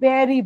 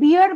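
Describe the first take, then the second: First: The vowel sounds like the one in 'bare'. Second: The vowel sounds like the one in 'beer'. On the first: The speaker calls it right. "English অ্যাকসেন্টে কথা বলি তাহলে কিন্তু আমরা বেরই বলি" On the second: The speaker calls it wrong. "আমরা কিন্তু বিয়ার বলি না"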